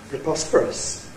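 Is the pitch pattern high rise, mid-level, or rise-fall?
rise-fall. The pitch rises, then falls. "the nuclear tone is a rise-fall"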